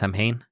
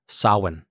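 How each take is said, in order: First: The word is said the way it is spelled. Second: The word sounds quite unlike its spelling. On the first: The speaker calls it wrong. "not pronounced Samhain" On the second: The speaker calls it right. "actually pronounced Samhain"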